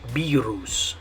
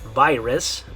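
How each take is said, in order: First: The word is pronounced with Spanish sounds. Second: The word is pronounced with English sounds. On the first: "in Spanish, the way you're going to pronounce it is virus" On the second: "in English, the way you pronounce it is virus"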